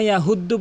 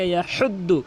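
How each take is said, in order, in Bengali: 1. 'h' হলো একটি সাধারণ, হালকা শ্বাস। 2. 'h' গলার গভীর থেকে আসে। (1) "কখনো ইয়াহুদ্দু বলবেন না" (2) "হলকের মাঝখান থেকে"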